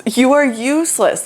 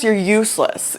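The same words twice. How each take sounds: First: Higher, each word spelled out: You are useless; emphatic repeat. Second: Said in the usual way. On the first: Retold or imitated.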